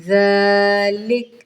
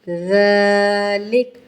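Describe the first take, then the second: No difference in how they are said.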